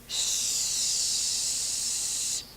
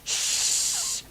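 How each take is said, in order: First: The shh flows out gently without extra pressure. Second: The shh is pushed out with strong air pressure. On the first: The speaker calls it right. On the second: The speaker calls it wrong.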